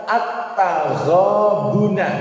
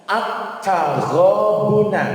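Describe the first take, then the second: No difference in how they are said.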